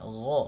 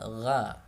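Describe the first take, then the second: First: The gh sound is thick and heavy. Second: The gh sound is thin and light. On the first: The speaker calls it right. "gha tebal" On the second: The speaker calls it wrong. "bukan gha"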